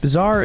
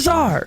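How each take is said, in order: First: It is said plainly, without exclamation. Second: It is said loudly, as an exclamation. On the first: The speaker calls it wrong. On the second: The speaker calls it right.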